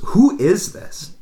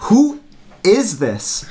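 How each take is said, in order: First: Slow, higher-pitched imitation of a puzzled friend; weirded-out demand. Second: Much higher, louder imitation of a baffled friend; insistent demand. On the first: Friend not recognizing the caller on the phone, bewildered. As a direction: draw out the question, retold bewilderment. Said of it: "weird the way she said it". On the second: Friend asking the caller a second time, insistent. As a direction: punch WHO, pause, then ask the rest. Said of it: "it was so strange".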